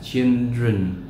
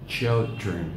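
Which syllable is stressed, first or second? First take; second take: second; first. First: The stress is on the second syllable. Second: The stress is on the first syllable. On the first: The speaker calls it wrong. "không đọc là children" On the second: The speaker calls it right. "Đó là children. Trọng âm rơi vào âm tiết thứ nhất"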